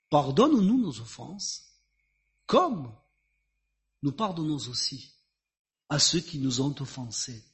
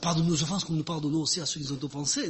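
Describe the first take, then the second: First: The sentence is said slowly and deliberately. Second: The sentence is rattled off quickly, by rote. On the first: The words are meant sincerely and with truth. The speaker calls it right. "je pense qu'il les a dit lentement" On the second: The words are merely repeated without thought. The speaker calls it wrong. "C'est pas juste le Notre Père que l'on répète"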